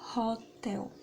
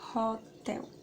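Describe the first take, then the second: First: The word begins with an audible h sound. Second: The same.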